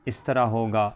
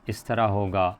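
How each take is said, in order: No difference in how they are said.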